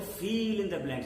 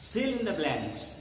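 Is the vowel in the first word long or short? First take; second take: long; short. First: The first word has a long vowel. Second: The first word has a short vowel. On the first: The speaker calls it wrong. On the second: The speaker calls it right.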